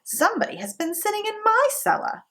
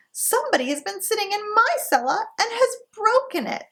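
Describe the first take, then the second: First: High, quick mother bear voice; mama bear, pitched up and hurried; mama bear's middle voice, high and fast. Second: Put-on very high tiny baby bear; baby bear's high wee voice; little small wee voice. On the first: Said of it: "in her middle voice". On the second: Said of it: "in his little small wee voice". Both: A narrator's reading.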